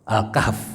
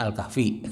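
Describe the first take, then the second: First: The word ends on a bare final consonant. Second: The word ends with an added final vowel.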